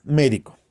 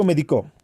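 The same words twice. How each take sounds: First: "Médico" stressed on MÉ; stress on first syllable. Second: "médico" said as me-di-CÓ; stress on last syllable. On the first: Teacher shows pupils the esdrújula "Médico", stressed on MÉ. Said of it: "Palabra esdrújula". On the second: Teacher shows pupils the aguda form of "médico", stressed me-di-CÓ. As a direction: shift the stress in "médico" onto the final co. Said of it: "Palabra aguda, se tilda porque termina en vocal". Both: Shown as a demonstration.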